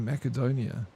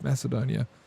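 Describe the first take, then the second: First: The c is said as a k sound. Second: The c is said as an s sound. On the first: The speaker calls it wrong. "kept pronouncing Macedonia with a hard C" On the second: The speaker calls it right. "Like it's Macedonia"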